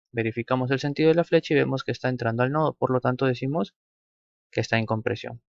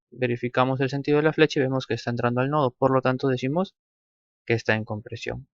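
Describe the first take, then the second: The two takes are said the same way.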